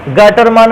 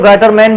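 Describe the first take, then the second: First: गाटरमान with a long "aa" in the last syllable; standard name pronunciation. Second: गाटरमैन with an English-like "man" ending; alternative pronunciation. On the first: Teacher names the reaction for pupils, गाटरमान ending in long "maan". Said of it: "या कुछ लोग गाटरमैन भी कह देते हैं". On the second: Teacher shows how some people say it, गाटरमैन ending in "man". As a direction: say गाटरमैन, last vowel as in "cat". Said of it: "कुछ लोग गाटरमैन भी कह देते हैं". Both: Shown as a demonstration.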